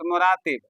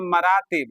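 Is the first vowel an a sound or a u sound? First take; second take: u sound; a sound. First: The first syllable has a u vowel. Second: The first syllable has an a vowel. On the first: The speaker calls it wrong. "Note मुरातिब" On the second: The speaker calls it right. "मुरत्तब जमा मरातिब"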